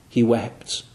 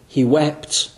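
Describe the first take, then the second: First: He wept, lower and softer, dropped almost to a murmur; soft lingering echo of the first take; hushed echo. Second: Said in the usual way. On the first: Acted. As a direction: let the repeat fall away quietly.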